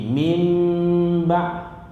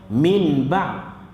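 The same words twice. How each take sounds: First: The sound before 'ba' is a nasalized m. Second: The sound before 'ba' is a plain n. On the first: "nama dia iqlab, dia jadi min ba'" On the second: "Sepatutnya kalau kita baca"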